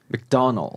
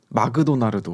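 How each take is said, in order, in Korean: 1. 미국 억양으로 발음됩니다. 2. 일본 억양으로 발음됩니다. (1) "미국에서는 맥도날드 이렇게 발음을 하고요" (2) "일본에서는 마그도나르도"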